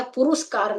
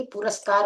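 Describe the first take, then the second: First: "पुरस्कार" mispronounced as puruskaar; wrong "पुरस्कार" pronunciation. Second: "पुरस्कार" as puraskaar, no second u; correct "पुरस्कार" pronunciation. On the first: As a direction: say "पुरस्कार" with u after r: pu-rus-kaar. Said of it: "पुरस्कार नहीं होता है". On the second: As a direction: say "पुरस्कार" with short a after r: pu-ras-kaar. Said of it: "याद है कि पुरस्कार होता है". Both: Shown as a demonstration.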